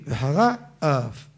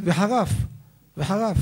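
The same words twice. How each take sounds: First: Slow וחרה, then a separate אף; words kept apart. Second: וחרף as one quick word, higher pitched; run together. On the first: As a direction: separate וחרה from אף, drawing both out. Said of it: "להבדיל". (וחרה אף בהבדלה, לאט) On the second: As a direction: swallow the gap so it becomes וחרף. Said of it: "אם יגיד מהר". (וחרף במילה אחת מובלעת) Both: Shown as a demonstration.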